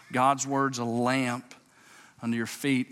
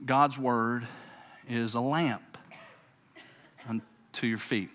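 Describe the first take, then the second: First: Slow deliberate reading. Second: Said in the usual way. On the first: Shown as a demonstration. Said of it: "watch this". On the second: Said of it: "quoting the verse".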